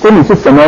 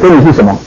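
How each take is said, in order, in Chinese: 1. 这是真诚地问，当作真正的问题。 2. 这是嘲讽地说，像轻蔑的感叹。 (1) "这是一个虔诚的想要问耶稣说" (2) "他只在笑"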